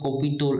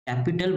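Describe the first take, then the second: First: The first vowel sounds like 'cop'. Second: The first vowel sounds like 'cap'. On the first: The speaker calls it wrong. "ऐसा कुछ अजीब-सा बोल रहे हो" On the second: The speaker calls it right. "कैपिटल बोलो"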